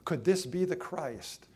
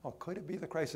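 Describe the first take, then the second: First: "Could this be the Christ" pitched out boldly to make listeners consider it; challenging question. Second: Quick, light "oh, could it be the Christ" with no challenge in it; "could it be the Christ" said fast and offhand; idle wondering. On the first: Acted. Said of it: "This is a challenging question". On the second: Shown as a demonstration. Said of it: "This is a challenging question. Now, oh".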